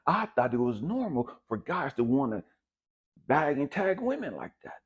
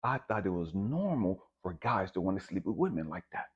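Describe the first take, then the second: First: Heated emphasis. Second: Said in the usual way. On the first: Shown as a demonstration. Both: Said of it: "repeated line, second pushed".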